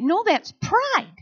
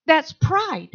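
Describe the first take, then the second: First: Slow, weighty "pride" pressed down at the end; stress on pride. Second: Said in the usual way. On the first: Shown as a demonstration. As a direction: lean slowly on the word "pride".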